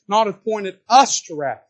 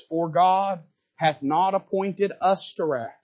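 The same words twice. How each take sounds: First: Louder stress on us; emphasized. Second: Slow, deliberate reading of us to wrath; slow scripture read. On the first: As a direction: punch us in Not appointed us to wrath. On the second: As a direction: read it slowly, weighing each word. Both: Shown as a demonstration. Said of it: "He emphasizes".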